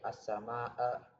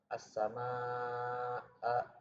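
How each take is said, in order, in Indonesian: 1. Vokal tengah dibaca pendek. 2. Vokal tengah dibaca panjang. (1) "tidak dibaca pendek" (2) "dipanjangkan empat sampai lima harokat"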